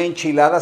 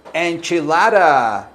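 First: Spanish "enchilada", even pure vowels; Spanish pronunciation. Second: "enchilada" as en-chi-LAH-ra, flapped d; stretched anglicized "enchilada"; English pronunciation. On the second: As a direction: say "enchilada" American-style, drawn out. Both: Shown as a demonstration. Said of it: "se dice".

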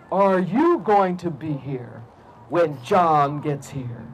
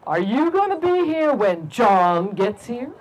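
First: Very slow, low cat voice; low, drawn-out ominous question; huge talking cat. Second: Slow, lightly voiced cat question; measured, slow cat voice; talking cat. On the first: Acted. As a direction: menace him slowly as a pony-sized cat. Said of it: "looked at the man and said". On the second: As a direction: draw out the question slowly, as a mildly ominous cat. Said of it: "it looked at the big, strong man and said".

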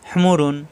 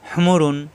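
The two takes are said the same way.

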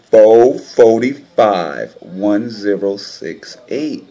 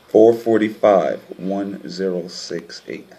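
First: "Four forty-five, one zero six eight" drawn out slowly, loud at the start; "Four forty-five" loud and slow, then "one zero six eight" dragged out; numbers slowly stressed. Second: Said in the usual way. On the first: Shown as a demonstration. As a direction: spell out each number slowly and heavily. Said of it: "I'ma show you again". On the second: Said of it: "take another look".

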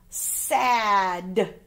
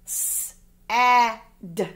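First: Said in the usual way. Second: "S-A-D" as three separate sounds, sss, short a, d; sounded out. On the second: Shown as a demonstration. Teacher helping pupils spell, "S-A-D" sounded out sound by sound. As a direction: say the sounds of "S-A-D" one by one, not letter names.

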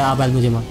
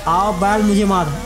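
First: Said in the usual way. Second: Slow, drawn-out proverb; proverb called out. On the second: Acted. Gamer mocking the trouble he invited, drawn-out proverb. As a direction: stretch each word like an invitation to trouble. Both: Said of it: "इसी को कहते हैं".

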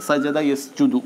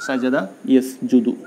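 First: Said in the usual way. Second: സജദ യസ്ജുദു spelled out very slowly, syllable by syllable; slow it right down so students can copy സജദ യസ്ജുദു; slow model reading. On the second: Shown as a demonstration. Teacher models സജദ യസ്ജുദു for pupils, very slowly.

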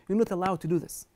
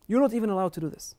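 First: Said in the usual way. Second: Not punched hard in You're not even allowed, louder and quicker; rising preacher's emphasis; louder, faster insistence. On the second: Shown as a demonstration. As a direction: drive the repeat home, louder and faster.

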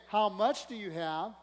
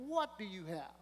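First: "much" lifted and slowed; stress on much. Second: "What" stressed, quieter and falling. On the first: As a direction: lean on "much" slowly. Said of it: "he didn't say". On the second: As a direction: hit "What" and drop it softly. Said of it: "He said". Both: Shown as a demonstration.

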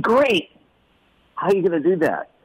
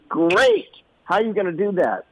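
First: A higher bright Great!; enthusiastic dad. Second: A much higher, quick Great!; enthusiastic dad. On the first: Father encouraging his son, higher and cheerful. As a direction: cheer him on, then challenge. Dad's upbeat challenge. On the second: Father urging his son onward, a high quick Great. Dad's upbeat challenge again. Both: Retold or imitated.

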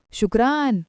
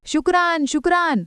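First: Said in the usual way. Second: High-pitched parroted thanks; eager mimicry. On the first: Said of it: "तो म्हणतो". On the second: A narrator's reading. Woman echoing the Dubai uncle's thanks, high eager mimicry. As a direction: echo the foreign word keenly. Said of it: "Nirupama लगेच नक्कल करते".

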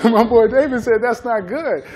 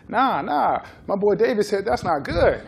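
First: Laughing repeat. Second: Laughing quote. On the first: Repeats the players' line, cracking up. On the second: Players defending their diet, laughing. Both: Retold or imitated.

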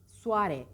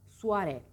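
The two takes are said the same way.

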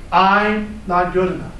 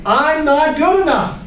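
First: Said in the usual way. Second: High, louder taunting inner critic; gremlin voice. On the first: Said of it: "what I'm here to tell you is Yang". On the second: Pretend. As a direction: sneer it as the gremlin. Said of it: "This is my gremlin voice".

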